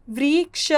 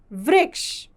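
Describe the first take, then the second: First: "वृक्ष" stretched into "व्री", "क्ष"; split into syllables. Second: Said in the usual way. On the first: Shown as a demonstration. Teacher reviewing the word for students, split into syllables. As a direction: sound out "वृक्ष" in two separate parts.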